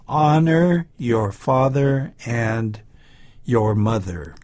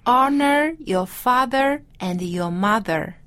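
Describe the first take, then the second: First: Slow, clear model sentence for repeating; slow model reading. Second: Slow, careful repeat of the line; slow repeat-after-me. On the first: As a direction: say it slowly for the class to copy. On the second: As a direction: echo it back slowly, word by word. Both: Shown as a demonstration. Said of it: "Let's say this".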